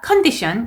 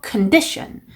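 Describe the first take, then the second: First: The stress falls on a misplaced syllable. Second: The stress falls on the standard syllable. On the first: The speaker calls it wrong. "condition 이게 아니고" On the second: The speaker calls it right. "condition 이렇게 강세까지 연습하셔야"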